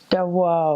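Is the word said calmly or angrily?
angrily. It is said angrily, with a w sound.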